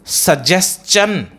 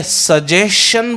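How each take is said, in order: First: Slow सजेशन with "s-chun" ending; correct pronunciation. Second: सजेशन ending in "shun"; wrong pronunciation. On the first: Teacher offering the second option, correctly pronounced. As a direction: say सजेशन slowly as "su-jes-chun". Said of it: "it is suggestion". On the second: Teacher offering the first option, mispronounced. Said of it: "it is not suggestion". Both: Shown as a demonstration.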